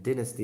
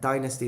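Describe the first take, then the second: First: The word is said with a British pronunciation. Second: The word is said with an American pronunciation. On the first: "is the British pronunciation" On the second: "is the American pronunciation"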